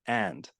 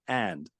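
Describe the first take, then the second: Both takes have the same delivery.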